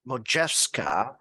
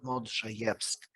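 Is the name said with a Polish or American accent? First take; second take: American; Polish. First: The name is said with American pronunciation. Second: The name is said with Polish pronunciation.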